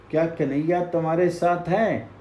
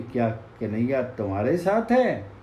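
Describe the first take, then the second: First: Quick, eager asking; eager question. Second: Echo. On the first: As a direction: rush the question out to the hidden voice. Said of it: "फिर पूछा". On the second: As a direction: hand it back as the forest's reply. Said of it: "प्रतिध्वनि आई कि". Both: Acted.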